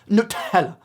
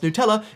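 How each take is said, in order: First: The stress is on the first syllable. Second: The stress is on the second syllable. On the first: "You have to make sure you have the accent on the nut" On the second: "it's pronounced Nutella, is pronounced that way in most countries"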